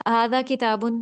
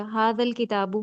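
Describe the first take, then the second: First: کتابن said with final -un nunation; indefinite Arabic form. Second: الکتاب said with al- prefix, no -un; definite Arabic form. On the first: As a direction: say ھذا کتابن ending in -un, no al-. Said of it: "کتابن، ہم اس کو معرفہ بنا سکتے ہیں الف لام لگا کے". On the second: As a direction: say ھذا الکتاب with al- before کتاب. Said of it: "ہم نے ساتھ الف لام لگا دیا". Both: Shown as a demonstration.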